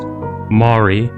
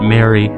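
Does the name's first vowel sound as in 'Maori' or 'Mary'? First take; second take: Maori; Mary. First: The name is said with the vowel of Maori. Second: The name is said like the name Mary. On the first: The speaker calls it right. "It's pronounced Mari, like the Maori" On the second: The speaker calls it wrong. "some people pronounce it Mary"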